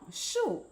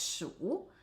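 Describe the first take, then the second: First: The word is said in the fourth tone. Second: The word is said in the third tone. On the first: It means many. "But when pronounced in the fourth tone" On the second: It means count. "One pronounced in the third tone as shu"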